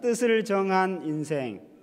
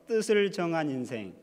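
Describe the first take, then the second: First: It is said loudly. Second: It is said at normal volume.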